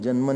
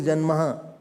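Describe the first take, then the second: First: The word ends cleanly on an 'n' sound. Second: The word ends with an added 'ha' sound. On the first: The speaker calls it right. "janman is the word" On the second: The speaker calls it wrong. "Don't say janmaha"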